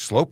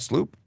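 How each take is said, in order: First: The vowel sounds like 'oh'. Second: The vowel sounds like 'oo'. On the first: The speaker calls it right. "pronounced like oh, it's Slope" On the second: The speaker calls it wrong. "not Sloop"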